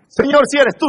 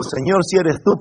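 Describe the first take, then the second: First: High, raised begging voice; urgent mock plea. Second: Said in the usual way. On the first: Preacher acting the wrong prayer for escape, urgent plea. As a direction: plead it high and pressing. The prayer Peter did not say.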